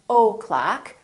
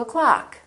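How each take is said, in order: First: The first vowel is full. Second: The first vowel is reduced. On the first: The speaker calls it wrong. "don't say" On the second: The speaker calls it right. "Reduce the O in the word o'clock"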